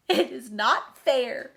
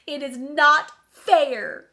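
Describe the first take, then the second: First: Loud, slow, drawn-out whine; mouse's complaint. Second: Even louder, slow wailing protest on not; mouse's louder complaint. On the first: The mouse complaining that life is unfair, in a slow loud whine. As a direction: stretch out the protest. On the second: The fed-up mouse repeating its complaint, in a louder wail. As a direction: lean hard on not, wailing. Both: Acted.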